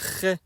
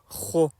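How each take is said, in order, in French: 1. Elle se prononce fine, avec une voyelle e légère. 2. Elle se prononce emphatique, avec une voyelle o sombre. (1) "je n'ai pas dit Ré, parce que ce n'est pas une lettre amincie" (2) "mais bien Ro, avec le O comme voyelle"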